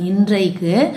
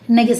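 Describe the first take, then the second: First: The middle consonant is an n followed by r. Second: The middle consonant is a plain double n. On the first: This is the formal correct form. The speaker calls it right. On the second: This is the casual spoken form. The speaker calls it wrong.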